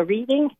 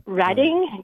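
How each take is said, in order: First: "reading" as REED-ing; long ee in "reading", as with a book; pronounced as spelled. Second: "Reading" as RED-ing; short e in "Reading", like the color red; local place name. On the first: Newcomer reading the town name, "reading" as REED-ing. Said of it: "you know, reading". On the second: Giving the Massachusetts town's name, "Reading" as RED-ing. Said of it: "you know, Re-, Reading". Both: Shown as a demonstration.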